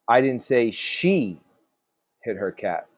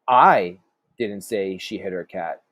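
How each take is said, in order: First: The stress falls on the word she. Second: The stress falls on the word I. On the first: Someone else hit the cat. "So maybe somebody else did" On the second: Someone else said it. "meaning maybe somebody else did"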